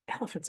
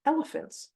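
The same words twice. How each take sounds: First: ELEPHANTS echoed softly as a question; puzzled echo. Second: ELEPHANTS set apart, high with a falling end; announced reveal. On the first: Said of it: "And I'm like". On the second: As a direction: reveal "elephants" on a high pitch, then drop. Reveals the image she was shown. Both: Retold or imitated.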